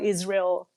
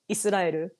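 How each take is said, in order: First: The name is said with English pronunciation. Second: The name is said with Japanese pronunciation. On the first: "we call Israel" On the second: "in Japan, by the way, we call Israel Israel"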